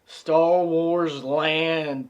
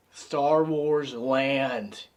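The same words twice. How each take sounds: First: Drawn out slowly, louder; hyped announcement. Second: Said in the usual way. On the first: Real, not acted. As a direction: sell it like a theme park ad. Repeated for emphasis, hyped.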